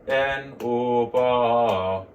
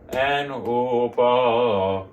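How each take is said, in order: Both takes have the same delivery.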